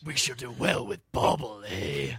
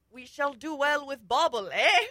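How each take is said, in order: First: Batman. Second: Louder, rising into a high 'eh?'; hero's proud declaration. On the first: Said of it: "a Badnass Grignir accent". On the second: Hero holds up the gem, hammy declaration. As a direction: declaim it, tag question jumping up. Hero's line acted with flourish. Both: Acted.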